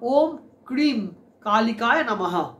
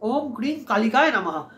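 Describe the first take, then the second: First: It is said in Sanskrit style, ending in 'namaha'. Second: It is said in Bengali style, ending in 'nama'. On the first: "এরকম করে বলবেন। মানে এটা actually সংস্কৃত উচ্চারণ" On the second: "আপনি স্ক্রিনে দেখতে পাচ্ছেন"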